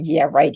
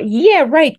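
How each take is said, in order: First: It sounds sarcastic and disbelieving. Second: It sounds sincere and approving. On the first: The speaker does not believe what was said. "you're kidding me" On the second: The speaker approves of what was said. "good for you"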